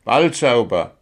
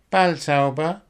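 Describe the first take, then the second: First: Balzauber as a firm, falling statement; Paul repeating. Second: Balzauber high, rising into a question; Willi's puzzled echo. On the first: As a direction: state Balzauber plainly and emphatically. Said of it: "wiederholte Paul". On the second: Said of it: "erkundigte sich Willi und gähnte". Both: A narrator's reading.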